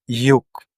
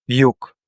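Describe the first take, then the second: No difference in how they are said.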